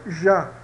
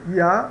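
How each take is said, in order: First: The word begins with a zh sound. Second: The word begins with an i sound. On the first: "Ou o J português" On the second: "pronuncia Y como I"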